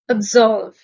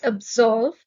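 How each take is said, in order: First: Absolve said abZOLVE, the s voiced as z. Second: Absolve with a z sound, abZOLVE. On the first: Vocabulary teacher showing learners the z sound in absolve. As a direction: say Absolve with a buzzing z, not s. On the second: Vocabulary teacher repeating the word for learners with a z. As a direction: voice the s in absolve as z, stress on ZOLVE. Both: Shown as a demonstration. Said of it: "The S in this word is pronounced with a Z".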